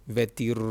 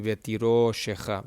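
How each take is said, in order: First: Long rolled R in "vetiroshecha"; stressed consonant, wrongly. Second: Long stressed O in "vetiroshecha"; stress on the vowel. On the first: Teacher showing what the word would not be, R exaggerated. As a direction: drag out the r of "vetiroshecha" instead of the o. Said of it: "not the consonant itself". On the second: Teacher correcting the wrong take, O accentuated. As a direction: hold the o after the r in "vetiroshecha", r kept short. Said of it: "accentuating the vowel". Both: Shown as a demonstration.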